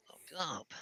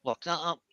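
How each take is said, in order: First: Breathy whisper, lock that up. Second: Said in the usual way. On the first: Acted. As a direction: whisper it to yourself. Repeats the phrase, then whispers it.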